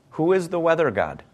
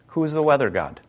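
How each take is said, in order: Both takes have the same delivery.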